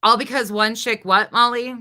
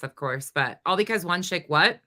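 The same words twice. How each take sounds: First: Loud, demanding repeat of her words; calling Molly out loudly; mocking challenge. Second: Said in the usual way. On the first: Real, not acted. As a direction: throw her own words back at her, loud.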